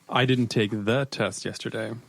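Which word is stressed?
test. The stress is on "test".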